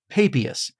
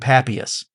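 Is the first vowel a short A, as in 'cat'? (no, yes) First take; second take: no; yes. First: The first vowel is not a short A. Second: The first vowel is a short A. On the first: "I say that this church father's name is Papias" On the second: "go for the good old American short A"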